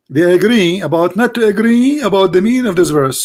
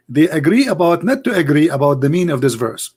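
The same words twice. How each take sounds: First: Louder and higher; emphatic. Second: Said in the usual way. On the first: Real, not acted. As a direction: repeat it with force. Repeats the point, louder and higher.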